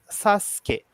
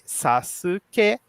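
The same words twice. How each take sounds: First: The middle u vowel is dropped. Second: The middle u vowel is fully pronounced. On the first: This is how the name is actually spoken. "mas se fala" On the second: This is how the name is written. "A gente escreve"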